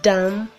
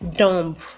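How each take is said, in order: First: The final B is silent at the end. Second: The final B is sounded at the end. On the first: The speaker calls it right. "The B at the end of each word is silent" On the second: The speaker calls it wrong. "It is actually common to hear people say"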